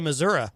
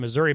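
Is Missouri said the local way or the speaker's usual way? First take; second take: local; usual. First: Missouri is said with the locals' pronunciation. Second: Missouri is said with the speaker's usual pronunciation. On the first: This is how people from the state say it. "I think Missourians actually say Missouri" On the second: This is how outsiders typically say it. "I would normally say Missouri"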